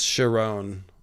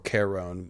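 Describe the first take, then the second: First: The name begins with a soft 'sh' sound. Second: The name begins with a hard 'k' sound. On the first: "I think it's Sharon" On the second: "Might even be a hard uh, ch"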